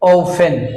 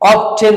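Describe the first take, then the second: First: The t sound is silent. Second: The t sound is pronounced. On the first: The speaker calls it right. "টিটা silent letter হবে" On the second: The speaker calls it wrong. "অফটেন বলছি আমরা"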